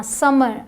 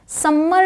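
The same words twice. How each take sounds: First: समर with one light m; correct pronunciation. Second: समर with a doubled, held m; wrong pronunciation. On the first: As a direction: say समर without lingering on m. (समर में एक ही म) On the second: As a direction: linger on the m of समर, "sum-mer". (समर में म को दोहराकर) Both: Shown as a demonstration. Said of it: "समर नहीं बोलना".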